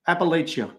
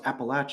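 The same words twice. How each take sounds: First: The middle does not sound like 'apple at'. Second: The middle sounds like 'apple at'. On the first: The speaker calls it wrong. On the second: The speaker calls it right. "It's like I threw an apple at you"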